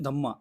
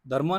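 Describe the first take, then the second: First: The middle has a doubled m with no r. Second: The middle has an r sound before the m. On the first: The speaker calls it right. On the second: The speaker calls it wrong. "धर्मा नहीं"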